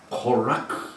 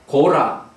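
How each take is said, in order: First: It is said with a harsh final throat sound. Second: It is said as two plain syllables, Go-ra.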